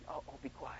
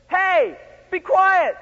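First: Very soft, timid hush; feeble, low request for quiet; not stern. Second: High, loud stern order; forceful telling-off at full voice. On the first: Shown as a demonstration. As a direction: murmur it meekly, barely audible. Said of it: "And even though they sternly". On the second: Acted. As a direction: shout them down sternly. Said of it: "They sternly said".

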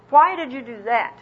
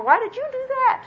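First: Accusing tone. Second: Much higher, shrill-free squeaky mock accusation; high-pitched accusation. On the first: Retold or imitated. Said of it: "in an accusing tone of voice". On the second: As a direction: pitch it way up like a nagging voice.

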